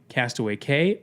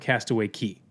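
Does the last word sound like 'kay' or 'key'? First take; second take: kay; key. First: The last word sounds like kay, rhyming with day. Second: The last word sounds like key, rhyming with see. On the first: "Do you say Castaway Cay" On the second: "or Castaway Key?"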